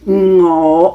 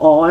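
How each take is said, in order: First: The word starts with an ng sound. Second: The word starts with a bare vowel. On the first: The speaker calls it right. "you must pronounce the beginning N G word" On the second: The speaker calls it wrong. "someone will say or or or lah"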